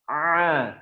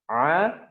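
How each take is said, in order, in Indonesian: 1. Bunyi tenggorokan itu ditekan, hampir seperti hentian glotis. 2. Bunyi tenggorokan itu ringan dan santai. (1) "kalau antum tekan huruf ain, ya, a, hampir mendekati hamzah" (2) "Ringan aja"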